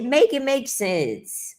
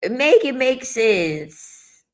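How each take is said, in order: First: Said in the usual way. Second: "Make it make sense" stretched out slowly, each word weighed; slow emphatic. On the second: Shown as a demonstration. Exasperated at men's logic, slow and deliberate.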